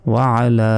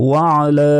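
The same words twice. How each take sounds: First: "আলা" with its last vowel held briefly; one-second vowel stretch. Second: Higher chant, "লা" of "আলা" held long; three-second vowel stretch. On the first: Teacher spelling out the verse, short stretch on "লা". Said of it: "লাতেও এক second টান হবে". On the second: Teacher showing the long sign, "লা" held long in chant. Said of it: "তিন second টেনে পড়তে হয়". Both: Shown as a demonstration.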